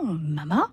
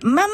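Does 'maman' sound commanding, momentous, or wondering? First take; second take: momentous; commanding. First: It is said grandly, as a big moment. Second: It is said imperiously, as a demand. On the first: The word marks an important occasion. "vous avez le grand moment" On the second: The child demands something right away. "vous avez l'impérieux"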